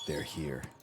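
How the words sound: It is said in a dramatic, theatrical voice.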